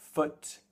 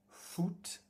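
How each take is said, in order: First: The vowel sounds like English, short and relaxed. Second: The vowel sounds French, like a long oo. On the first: The speaker calls it right. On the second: The speaker calls it wrong.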